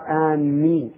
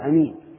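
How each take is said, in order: First: The first vowel is long and the m doubled. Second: The first vowel is short and the m single. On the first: "ولا يقال آمين، ... بتشديد الميم بمعنى قاصدي" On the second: "ويجوز قص الهمزة فيقال أمين"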